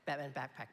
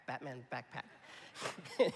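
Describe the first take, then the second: First: Said in the usual way. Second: Slow, laughing Batman backpack; laughing through it. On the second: Shown as a demonstration. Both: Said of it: "I can't even say it".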